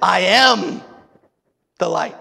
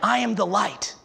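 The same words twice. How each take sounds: First: It is said with strong emphasis. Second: It is said plainly, without extra emphasis.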